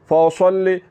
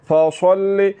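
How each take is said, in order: No difference in how they are said.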